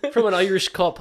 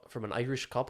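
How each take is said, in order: First: "cop" repeated loud and high through amusement; correcting stress on "cop". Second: Said in the usual way. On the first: Real, not acted. Repeating for co-host who misheard, emphatic "cop". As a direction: hit "cop" hard to fix the mishearing. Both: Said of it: "I said cop".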